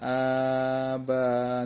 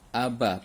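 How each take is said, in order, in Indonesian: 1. Vokalnya dibaca panjang. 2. Vokalnya dibaca pendek. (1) "Nggak boleh baca panjang aba, nggak bisa" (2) "ini dibaca aba, pendek"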